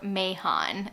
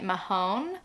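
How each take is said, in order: First: The name ends with a short 'on' sound. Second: The name ends with a long 'ohn' sound. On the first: This is how the audiobook says it. The speaker calls it right. "I think it's pronounced on audiobook Mahon" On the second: This is how the reader had been saying it. The speaker calls it wrong. "I've been pronouncing it Mahone"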